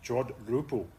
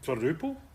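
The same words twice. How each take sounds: First: It is said slowly. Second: It is said at normal speed.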